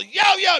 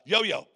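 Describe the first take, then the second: First: High, loud acted yell; shouting to someone by an open plane door. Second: Said in the usual way. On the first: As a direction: holler the name over roaring wind. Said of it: "you gotta yell 'cause the door's open". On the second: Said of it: "I looked at".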